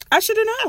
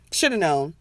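First: Much higher, sing-song self-mocking whine; mock whiny squeak. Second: Said in the usual way. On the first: Cohost mocking her own regret, high mock whine.

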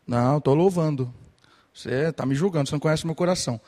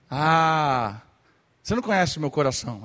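First: Louder, defensive mock protest; indignant protest. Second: Louder, fast mock whine; mocking retort. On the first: Worshipper protesting to the preacher, indignant and loud. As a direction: snap back like a worshipper who feels judged. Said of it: "aí você tá lá assim". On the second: Sulky worshipper brushing off the preacher, mock whine. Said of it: "tá cantando, tá assim".

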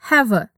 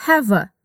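First: "have a" joined smoothly, hav-a; linked have a. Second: "have a" run together as one word, hav-a; linked have a. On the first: Teacher repeating the linked have a. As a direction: let "have" flow into "a". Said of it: "Repeat, have a". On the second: Teacher showing how have links to a. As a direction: blend "have" straight into "a". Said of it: "O som do have se junta com o som de a". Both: Shown as a demonstration.

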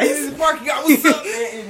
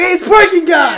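First: Mock greeting. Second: High, loud greeting shout; mock excited shout. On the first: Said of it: "echoes the pretend greeting". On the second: Rapper spotting the parking guy, high loud mock greeting. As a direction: call out as if spotting an old pal. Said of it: "He's like".

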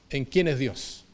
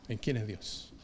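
First: Said in the usual way. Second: Quiet echo. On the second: Acted. Preacher echoing it softly to congregation, hushed repeat. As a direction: lower and much softer, trailing away.

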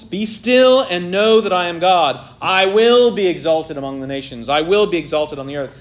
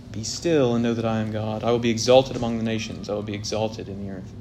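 First: Louder, forceful command to enemies; stern divine decree; commanding rebuke. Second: Soft, comforting promise to his people; lower, softer, consoling scripture; quiet reassuring reading. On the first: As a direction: order the rebels to stand down. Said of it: "God is confronting the rebellious nations". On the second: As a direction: read it as gentle comfort. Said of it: "this interpretation of the verse". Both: Shown as a demonstration.

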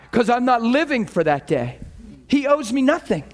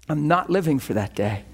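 First: Emphatic. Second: Said in the usual way. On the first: Real, not acted. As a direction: preach 'living' with force. Emphatic sermon point, repeated.

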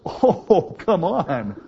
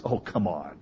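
First: "Oh, come on" much higher and louder, thrilled; delighted disbelief. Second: Low, soft, scornful "Oh, come on"; scoffing disbelief. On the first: Abraham laughing with joy at the promise, high excited cry. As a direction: squeal "Oh, come on" in happy amazement. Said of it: "Abraham's laugh was". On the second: Sarah's doubting laugh, low scornful scoff. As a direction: say "Oh, come on" like you don't buy it. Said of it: "her laugh was". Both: Retold or imitated.

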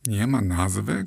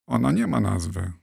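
First: Mildly incredulous echo, rising at the end; shocked question. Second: Said in the usual way. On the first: A narrator's reading. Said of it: "krzyknął Arbus".

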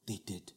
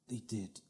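The two takes are said the same way.

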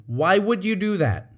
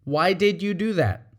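First: "would" leaned on, blaming; accusatory why with "would" punched; accusing question. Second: "did" stressed, genuinely asking; open, curious why; sincere question. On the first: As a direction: make it an accusation. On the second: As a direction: ask because you want to know. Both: Shown as a demonstration. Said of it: "As opposed to".

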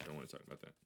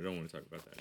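First: Much softer, almost to himself; muttered under breath. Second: Said in the usual way. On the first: Real, not acted. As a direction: let it die away quietly.

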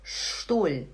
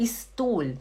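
First: "Stuhl" as shtool; correct initial sh. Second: "Stuhl" as is-tool; wrong plain s. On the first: Teacher correcting the mistake, "Stuhl" as shtool. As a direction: open "Stuhl" with a long sh. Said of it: "tem que fazer". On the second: Teacher showing the mistake, "Stuhl" as is-tool. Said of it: "Não é Stuhl". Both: Shown as a demonstration.

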